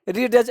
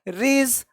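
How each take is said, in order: First: A clear d sound is pronounced before the end. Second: No d sound is pronounced before the end. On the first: The speaker calls it wrong. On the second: The speaker calls it right.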